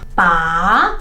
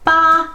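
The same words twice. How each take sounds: First: The pitch rises from low to high. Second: The pitch stays high and level throughout. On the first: "the second tone is ba, from the bottom to the top" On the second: "the first tone, ba, ba is flat"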